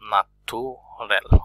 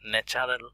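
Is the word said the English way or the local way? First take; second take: local; English. First: It is said with the local pronunciation. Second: It is said with the English pronunciation. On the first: "এই শব্দকে ন্যাচুরাল বলেন তারা" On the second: "ন্যাচারাল নয়"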